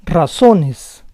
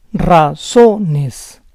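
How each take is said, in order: First: Said in the usual way. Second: Razones split as ra-ZO-nes; syllable by syllable. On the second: Shown as a demonstration. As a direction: say Razones in parts, stressing ZO. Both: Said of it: "try to understand the rules".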